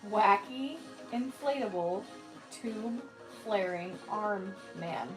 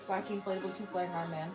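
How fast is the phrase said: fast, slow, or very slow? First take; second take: very slow; fast. First: The phrase is said very slowly. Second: The phrase is said quickly.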